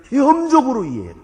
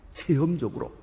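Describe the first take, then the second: First: 체험적으로 hit loud and high, falling; loud emphasis. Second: Said in the usual way. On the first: Real, not acted. Preacher proclaiming to congregation, loud stress.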